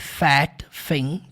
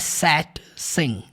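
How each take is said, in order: First: Both words begin with an f sound. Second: Both words begin with an s sound. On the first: "Parece som de F, mas não é fat, thing" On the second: "Também não é som de S, tá? Não é sat, sim, não"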